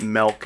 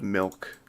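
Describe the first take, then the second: First: Milk said as "melk"; mispronounced milk. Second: Said in the usual way. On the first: Shown as a demonstration. Streamer mimicking people who call it wrong, milk as "melk". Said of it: "people who call it milk instead of milk". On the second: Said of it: "instead of milk".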